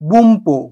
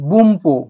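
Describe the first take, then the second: First: It is said with an m before 'po'. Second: It is said with an m before 'po'.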